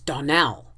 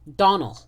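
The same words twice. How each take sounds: First: The stress is on the last syllable. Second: The stress is on the first syllable. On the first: The speaker calls it right. "Accent on the last syllable" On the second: The speaker calls it wrong. "you pronounced her name Donnell"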